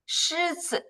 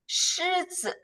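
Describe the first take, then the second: Both takes have the same delivery.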